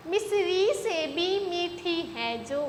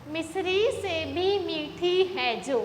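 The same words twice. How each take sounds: The two takes are said the same way.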